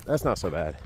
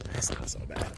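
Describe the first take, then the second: First: Said in the usual way. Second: Unvoiced murmur, half to himself; whispered to himself. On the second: Real, not acted. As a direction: breathe it out as a private reassurance.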